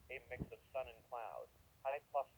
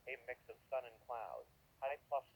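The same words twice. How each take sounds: The two takes are said the same way.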